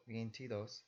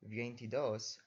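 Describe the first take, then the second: First: Veintidós with the stress on the final dós; stress on last syllable. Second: Veintidos stressed on the second to last syllable, ti; wrong stress. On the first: Teacher showing the correct stress, vein-ti-DÓS. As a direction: land on dós at the end of veintidós. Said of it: "it's the last syllable with emphasis". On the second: Teacher showing the wrong stress, vein-TI-dos. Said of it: "without an accent mark, you would pronounce". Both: Shown as a demonstration.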